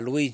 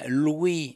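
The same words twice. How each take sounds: First: The name is said the French way. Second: The name is said the English way. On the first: This is not how the musician wanted his name said. The speaker calls it wrong. "et non pas Louis" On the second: This is how the musician wanted his name said. The speaker calls it right. "je dis bien Louis"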